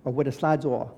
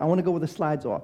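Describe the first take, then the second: First: Said in the usual way. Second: Lightly voiced pouty little girl; a hint of a whiny child; imitating sulky toddler. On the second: Father imitates his little daughter, mildly pouty. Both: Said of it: "She talked like that".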